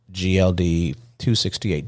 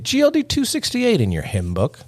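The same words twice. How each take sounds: First: Said in the usual way. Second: High, held-note church announcer; mock preacher. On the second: Host announces an episode like a hymn, mock preacher. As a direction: call it out high like a hymn number.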